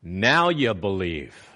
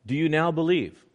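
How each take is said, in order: First: Slow, lower statement, "Now you believe." said as a falling rebuke, not a question; flat statement. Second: Asked as a plain question; read as a question. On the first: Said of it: "It literally reads". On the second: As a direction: read it as a real question, rising. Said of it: "that has got a question mark behind it". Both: Shown as a demonstration.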